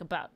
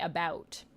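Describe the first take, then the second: First: The vowel in about is short and clipped. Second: The vowel in about is drawn out. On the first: "Americans would say... they just say it like about, like it's just kind of thrown away" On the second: "Whereas we say about, ow"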